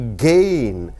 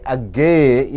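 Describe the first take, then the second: First: The first 'a' is weak, almost silent. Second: The first 'a' is said fully and stressed. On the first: The speaker calls it right. "you say gain" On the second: The speaker calls it wrong. "You don't say again"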